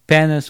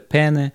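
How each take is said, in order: First: The word ends with an 's' sound. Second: The word ends on a vowel sound. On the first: "Вот это произношение, как говорят, penis with vodka sauce" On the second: "это пене"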